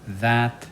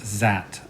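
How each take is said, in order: First: The word begins with a voiced th sound. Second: The word begins with a z sound. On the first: The speaker calls it right. "remember it's this, that" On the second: The speaker calls it wrong. "instead of saying th, I said uh, z"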